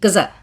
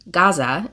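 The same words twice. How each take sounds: First: It uses an altered, more Arabic-like pronunciation. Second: It uses the common English pronunciation. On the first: The speaker calls it right. "it's pronounced Gaza. Like it's not, we put like an accent in there" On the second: The speaker calls it wrong. "it's not pronounced Gaza"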